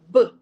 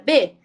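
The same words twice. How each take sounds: First: The consonant is said alone without a vowel. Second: The consonant is followed by an 'e' vowel. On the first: This is the sound the letter makes. "mas o sonzinho dele é B" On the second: This is the name of the letter. "o nome do B é B"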